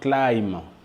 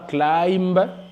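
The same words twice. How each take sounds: First: No b sound is heard at the end. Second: A b sound is heard at the end. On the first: The speaker calls it right. "mais nous disons simplement climb" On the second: The speaker calls it wrong. "on ne dit pas climb"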